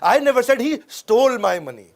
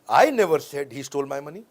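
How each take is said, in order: First: The stress is on "stole". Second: The stress is on "I".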